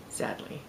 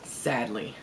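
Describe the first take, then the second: First: Whisper. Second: Said in the usual way. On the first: Real, not acted. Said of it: "repeated in a whisper". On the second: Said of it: "said twice".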